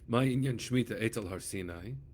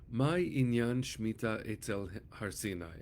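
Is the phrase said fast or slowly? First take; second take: fast; slowly. First: The phrase is said at a faster pace. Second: The phrase is said at a slower pace.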